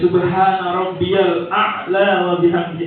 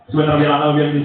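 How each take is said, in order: First: The phrase is recited at a calm, normal pace. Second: The phrase is recited hurriedly at double speed. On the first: The speaker calls it right. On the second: The speaker calls it wrong.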